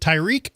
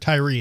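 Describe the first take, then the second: First: The name ends with a k sound. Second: The name ends without a k sound.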